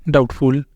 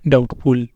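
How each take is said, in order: No difference in how they are said.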